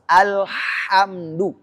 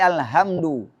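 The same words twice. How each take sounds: First: The h is a deeper, throaty sound. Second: The h is a light, plain breathy sound. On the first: The speaker calls it right. "harus alhamdu" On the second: The speaker calls it wrong. "Enggak boleh alhamdu"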